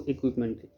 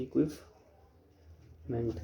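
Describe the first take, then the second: First: Said in the usual way. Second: इक्विपमेंट drawn out very slowly and softly, fading away; slow careful demo. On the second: Shown as a demonstration. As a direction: teach इक्विपमेंट by stretching every syllable very slowly. (इक्विपमेंट को बहुत धीरे और नरमी से खींचकर बोलना) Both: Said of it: "और क्या बोलेंगे इसको".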